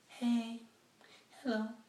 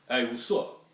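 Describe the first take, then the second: First: It is said in a sweet feminine voice. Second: It is said in a gruff masculine voice.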